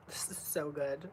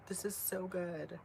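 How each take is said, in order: First: Whisper. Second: Said in the usual way. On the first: Real, not acted. Vlogger tasting couscous, first whispering it's so good. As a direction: whisper it in delight. Whispered then repeated aloud.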